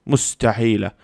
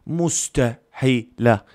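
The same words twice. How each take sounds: First: Said in the usual way. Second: مستحيلة very slowly, split into separate syllables; emphatic syllable-by-syllable. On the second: Real, not acted. Fan sure Cornado will not score, مستحيلة in slow separate syllables. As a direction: stretch out مستحيلة, pausing between its syllables. Repeats the word broken into syllables.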